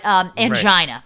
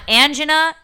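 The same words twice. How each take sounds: First: The word rhymes with vagina. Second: The word does not rhyme with vagina. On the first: The speaker calls it right. "but angina" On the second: The speaker calls it wrong. "not angina"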